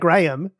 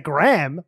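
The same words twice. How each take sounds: First: The name is said the speaker's own, non-American way. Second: The name is said the American way.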